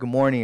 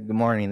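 First: The greeting is said in a lively, upbeat voice. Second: The greeting is said in a flat, monotone voice. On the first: The speaker is happy to be there. The speaker calls it right. "you just made that room so much happier" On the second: The speaker does not want to be there. The speaker calls it wrong. "monotone, don't want to be there"

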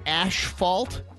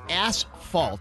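First: The first syllable sounds like 'ash'. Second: The first syllable sounds like 'ass'. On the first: The speaker calls it wrong. "Everyone says asphalt" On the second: The speaker calls it right. "but it's asphalt. There's no H after the S"

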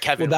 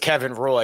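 First: The surname Roy has a French sound. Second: The surname Roy has a plain English sound. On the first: "he's French Canadian and it's like Kevin Roy" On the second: "I also assume it's Kevin Roy"

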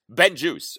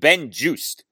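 First: The name ends without a T sound. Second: The name ends with a T sound.

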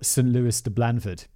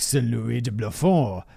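First: The name is pronounced with English sounds. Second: The name is pronounced with French sounds.

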